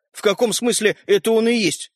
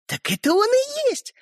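First: Puzzled, mildly taken-aback question; bewildered. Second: High, drawn-out gleeful reveal; joyful announcement. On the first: Brother questions sister's reveal, bewildered. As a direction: ask it in puzzlement. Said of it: "с недоумением спросил Родька". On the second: Sister reveals the swapped toy, joyful. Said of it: "радостно заявила Ариша". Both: A narrator's reading.

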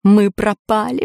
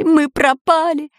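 First: Said in the usual way. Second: Higher, slower panicky wail; panicked cry. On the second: A narrator's reading. Robbers trapped in dark cave, panicked wail. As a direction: cry out that all is lost. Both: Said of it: "заметались по пещере разбойники".

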